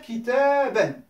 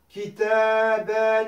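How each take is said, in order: First: The final vowel is kept short. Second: The final vowel is drawn out long. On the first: The speaker calls it right. "je vais faire comme si en vérité c'était une courte" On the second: The speaker calls it wrong. "Je ne vais pas dire kitaben"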